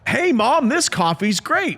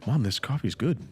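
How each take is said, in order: First: It is said loudly. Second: It is said quietly and calmly.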